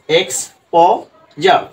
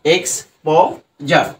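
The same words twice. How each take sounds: First: এক্সপোজার dragged out very slowly, each sound clear; very slow model. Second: এক্সপোজার repeated very slowly with final র. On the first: Teacher demonstrates এক্সপোজার very slowly to students. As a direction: show them এক্সপোজার very slowly. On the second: Teacher repeats এক্সপোজার slowly for the class. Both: Shown as a demonstration. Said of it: "আমি তোমাদের দেখিয়ে দিছি".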